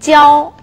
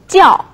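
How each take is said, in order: First: It is said with a high level tone. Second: It is said with a falling tone. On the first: It is a verb meaning to teach. "동사로 사용될 때는 教 일성입니다" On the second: It is used in a noun. "명사로 사용할 때는 教 사성이 되겠습니다"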